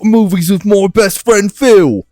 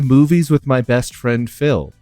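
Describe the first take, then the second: First: It is said in a put-on Irish accent. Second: It is said in the speaker's natural accent. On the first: "was that Irish?" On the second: "I'm reading this with no affectation"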